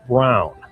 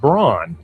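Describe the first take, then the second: First: The vowel sounds like the one in town. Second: The vowel sounds like the one in dawn. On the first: This is the name's original German pronunciation. The speaker calls it right. "but in German, the name is pronounced Brown" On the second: This is how the spelling looks to English readers. The speaker calls it wrong. "To the American eye, this looks like Braun"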